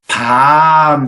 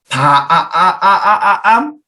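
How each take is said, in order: First: The vowel is said at normal length. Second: The vowel is stretched out very long. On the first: "밤 하는데" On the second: "이렇게 얘기를 하진 않잖아요"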